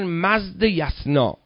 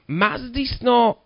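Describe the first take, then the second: First: The word is said as two parts, mazd-yasna. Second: The word is said as one unit, mazdisna. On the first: The speaker calls it right. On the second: The speaker calls it wrong.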